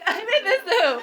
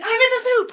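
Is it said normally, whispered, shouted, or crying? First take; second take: crying; shouted. First: It is said in a crying voice. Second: It is said in a shout.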